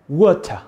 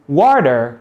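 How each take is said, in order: First: It is said with a British accent. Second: It is said with an American accent.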